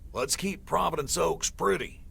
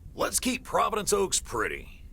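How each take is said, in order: First: It is said plainly, without much passion. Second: It is said with strong, rousing passion.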